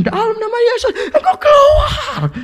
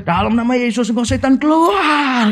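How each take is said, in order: First: Very high, strained imitation of a screamed command; escalated mock exorcist shriek. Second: Mock exorcism command rising high on the last word; imitated exorcist yell. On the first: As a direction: mimic a frantic exorcist, stretching the last word. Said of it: "tambah kencang". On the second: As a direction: imitate casting out a demon, pitch climbing without full shouting. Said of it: "Ngusirnya itu teriaknya kencangnya setengah mati".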